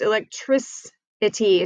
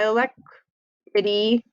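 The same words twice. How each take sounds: First: The C before -ity is a soft S sound. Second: The C before -ity is a hard K sound. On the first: The speaker calls it right. "it's electricity. So you can hear how that changes from the hard C to the soft" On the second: The speaker calls it wrong. "it's not electricity"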